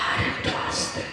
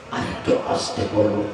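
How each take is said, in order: First: Breathy whispered plea for quiet; barely a whisper. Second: Much lower, softer murmured request; asking softly. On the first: (ফিসফিস করে) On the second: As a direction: drop the voice right down. (নিচু গলায় আস্তে বলা) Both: Shown as a demonstration. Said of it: "যত আস্তে করে বলতে বলো".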